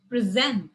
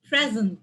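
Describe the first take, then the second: First: The stress is on the last syllable. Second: The stress is on the first syllable. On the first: It is a verb. "words that has a stress on the last syllable" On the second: It is a noun. "my first syllables are stressed in these"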